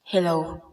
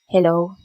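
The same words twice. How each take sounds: First: The voice has an added echo effect. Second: The voice is dry, with background noise removed. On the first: "nagustuhan ko dito yung echo niya" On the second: "i-reduce noise natin siya"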